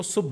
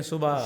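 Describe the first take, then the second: First: सुबह cut to one syllable, "subh"; refined old pronunciation. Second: सुबह said with two syllables, su-bah; common pronunciation. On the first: Retold or imitated. Guest echoing his recorded mentors, one-syllable "subh" for सुबह. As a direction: end सुबह on the b, no second vowel. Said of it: "तो वो सुबह बोलते थे". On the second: Shown as a demonstration. Guest showing how everyone says it, common two-syllable सुबह. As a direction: say सुबह the everyday way, vowel after the b. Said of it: "हालांकि सारे कहते हैं".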